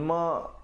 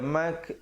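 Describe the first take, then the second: First: The syllable ends with a glottal stop. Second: The syllable ends with a k sound. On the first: "ma jadi huruf hamzah" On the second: "jangan baca mak jadi huruf kaf"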